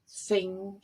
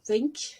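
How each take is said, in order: First: The final consonant sound is left off. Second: The final consonant sound is clearly pronounced. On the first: The speaker calls it wrong. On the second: The speaker calls it right.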